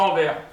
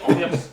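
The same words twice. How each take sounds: First: The final S is silent. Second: The final S is pronounced. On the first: The speaker calls it wrong. "pas Anvers" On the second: The speaker calls it right. "faut dire Anvers"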